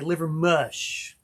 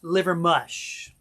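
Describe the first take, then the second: First: The last syllable sounds like 'mush'. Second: The last syllable sounds like 'mush'.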